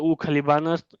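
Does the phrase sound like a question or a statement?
statement. It is said with plain statement intonation. He is a pilot. "यानी कि वो पायलट है"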